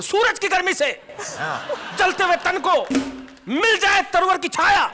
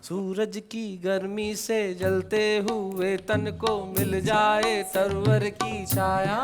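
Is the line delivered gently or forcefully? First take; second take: forcefully; gently. First: It is declaimed loudly, in a heroic, forceful style. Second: It is delivered gently, like a devotional song.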